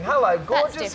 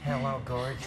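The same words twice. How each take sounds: First: The greeting sounds warm and familial. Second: The greeting sounds creepy and leering. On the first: A relative greets someone affectionately. The speaker calls it right. "it might be your uncle or something" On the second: A stranger makes an unwanted advance. The speaker calls it wrong. "That's the one"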